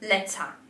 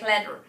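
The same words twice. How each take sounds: First: A British accent, final R barely heard. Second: An American accent, final R clearly pronounced.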